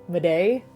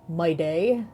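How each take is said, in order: The two takes are said the same way.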